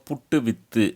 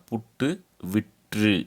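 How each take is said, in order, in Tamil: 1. இந்தச் சொல் பேச்சு வழக்கில் சொல்லப்படுகிறது. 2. இந்தச் சொல் எழுத்து வழக்கில் சொல்லப்படுகிறது. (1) "இந்த பக்கம் இருக்கிறத பேச்சு வழக்கு" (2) "இது எழுத்து வழக்காக"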